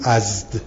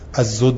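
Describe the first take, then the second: First: No vowel sounds between the last two consonants. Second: A vowel sounds between the last two consonants.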